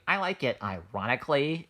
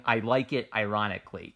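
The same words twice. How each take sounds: First: Lightly put-on millennial voice; a hint of ironic millennial condescension. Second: Said in the usual way. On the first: Explaining why the phrase sounds condescending, light millennial voice. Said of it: "say that in the millennial voice".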